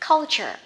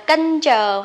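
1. Âm tiết đầu tiên kết thúc bằng âm L. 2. Âm tiết đầu tiên không có âm L. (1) "Nó sẽ là chữ V ngược á, thêm chữ L cong vô culture" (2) "không đọc là kênh chờ"

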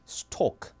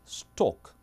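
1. 모음은 둥근 'o' 소리입니다. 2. 모음은 둥근 'o' 소리입니다.

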